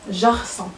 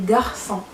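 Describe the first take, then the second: First: جارسون said with a soft j sound, zh-arson; the wrong way, جارسون with a soft zh at the start. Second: غارسون said with a hard g, gar-son; the right way, غارسون opening on a hard g. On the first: Teacher to students showing the wrong way, a soft zh. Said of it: "ما غنطقوهاش". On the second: Teacher to students giving the right hard g. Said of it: "لا، كنطقوها غارسون". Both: Shown as a demonstration.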